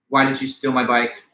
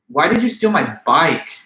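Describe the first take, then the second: First: It is said flat, with no word stressed. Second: The word bike is stressed. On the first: "if I just say in a flat monotone" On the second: "Now the accent is placed on the word bike"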